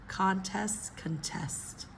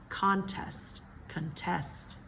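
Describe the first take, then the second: The two takes are said the same way.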